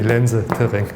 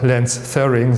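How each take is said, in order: First: The names are pronounced in a German-sounding way. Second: The names are pronounced in an English-sounding way. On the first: The speaker calls it right. "They were Austrian. ... it's really" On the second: The speaker calls it wrong. "sometimes one hears funny pronunciation of these names"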